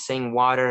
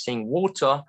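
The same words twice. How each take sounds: First: American pronunciation of "water"; American accent. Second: British "water", no R at the end; British accent. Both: Shown as a demonstration. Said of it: "difference between American and British".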